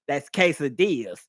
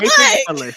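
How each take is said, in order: First: The word is pronounced the standard way. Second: The word is pronounced as it is spelled. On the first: The speaker calls it right. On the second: The speaker calls it wrong.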